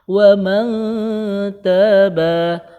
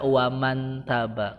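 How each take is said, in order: First: The n is blurred into a long nasal hum. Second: The n is pronounced clearly without a nasal hum. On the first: The speaker calls it right. "Ikhfa itu samar, kemudian samarnya dengan de dengung... tiga harokat" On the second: The speaker calls it wrong. "nggak boleh baca waman taba karena bukan izhar"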